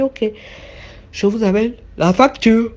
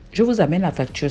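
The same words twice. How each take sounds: First: Waiter's voice. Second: Said in the usual way. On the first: Retold or imitated. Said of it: "il a dit". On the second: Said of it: "Excusez-moi".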